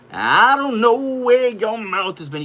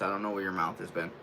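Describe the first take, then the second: First: Loud, high-pitched hammed-up yell; suddenly belted out, much higher; mock outburst. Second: Said in the usual way. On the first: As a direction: holler it in mock protest at the dog. Exaggerated repeat to the dog.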